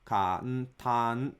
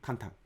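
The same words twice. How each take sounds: First: Kantan with four even beats; full-length kantan; right kantan. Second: Kantan rushed with a short kan; clipped foreign kantan; wrong kantan. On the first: Teacher modelling the right kantan. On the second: Teacher imitating the wrong kantan. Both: Shown as a demonstration. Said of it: "not kantan".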